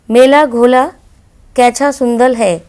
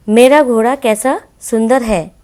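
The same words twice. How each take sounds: First: Put-on मेला घोला said with l for r, कैसा as कैछा, childlike; childish lisp. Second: Said in the usual way. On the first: Shown as a demonstration. Teacher voices the toddler's lisping words. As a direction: lisp it like a small child, louder. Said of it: "बच्चों की तोतली भाषा". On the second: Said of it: "शुद्ध हिंदी".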